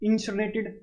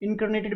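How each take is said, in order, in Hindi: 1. दूसरा हिस्सा 'sin' जैसा सुनाई देता है। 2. दूसरा हिस्सा 'kar' जैसा सुनाई देता है। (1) "तो जलाने को क्या बोलते हैं" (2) "इनकर्नेटेड भी बोलते हैं कई बंदे इसको"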